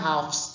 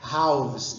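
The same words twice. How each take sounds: First: The ending uses an F sound, like a regular plural. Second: The ending uses a V sound, an irregular plural. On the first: The speaker calls it wrong. "Então não é halves" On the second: The speaker calls it right. "é halves"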